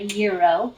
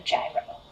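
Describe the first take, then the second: First: The word begins with a Y sound. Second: The word begins with a J sound. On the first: The speaker calls it right. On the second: The speaker calls it wrong.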